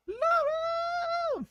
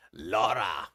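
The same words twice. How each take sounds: First: Very high, held playful wail; falsetto cry. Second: Short, low playful holler; mock shout. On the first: Pretend. Host greeting Laura as she walks in, falsetto cry. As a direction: stretch the name out in falsetto. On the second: Host greeting Laura as she walks in, mock shout. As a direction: call the name out in a low put-on voice. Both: Calls out to arriving viewer.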